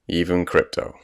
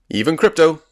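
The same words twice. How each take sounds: First: It is said flatly, without enthusiasm. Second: It is said with forced enthusiasm.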